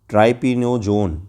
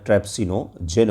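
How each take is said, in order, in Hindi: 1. इस शब्द में 'tryp' के बाद 's' की आवाज़ नहीं है। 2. इस शब्द में 'tryp' के बाद 's' की आवाज़ है।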